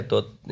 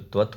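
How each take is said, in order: First: त्वत् slurred to a quick "tot" with the v dropped; a rushed, mistaken त्वत्; slipped pronunciation. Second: त्वत् with a clear "tv" cluster and a dental t, as "tvat"; a deliberate fix of त्वत्; corrected pronunciation. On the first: Real, not acted. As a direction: say त्वत् carelessly as "tot", no v sound. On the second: Shown as a demonstration. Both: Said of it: "sorry, त्वत् होता है".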